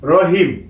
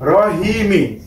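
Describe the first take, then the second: First: The word ends on the final m consonant. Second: The word ends with a short i vowel.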